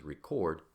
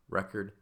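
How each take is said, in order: First: RECORD as a verb, stressed on the second syllable. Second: RECORD as a noun, stressed on the first syllable. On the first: Teacher showing how accent marks verbs, "record" stressed at the end. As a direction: hit the last syllable of "record". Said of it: "as a verb". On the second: Teacher showing how accent marks nouns, "record" stressed up front. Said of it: "the word record as a noun". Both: Shown as a demonstration.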